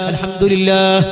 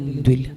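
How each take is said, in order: First: The word is said with every sound clear. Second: The word is rushed and slurred into fewer sounds. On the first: The speaker calls it right. "ആ രൂപത്തിലാണ് ചെല്ലേണ്ടത്" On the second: The speaker calls it wrong. "ലാസ്റ്റ് എന്തുല്ല"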